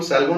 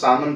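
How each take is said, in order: First: The L sound is pronounced. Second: The L sound is silent. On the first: The speaker calls it wrong. "इसको हम सैल्मोन नहीं पढ़ते" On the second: The speaker calls it right. "इसको सामन पढ़ते हैं, एल silent होता है"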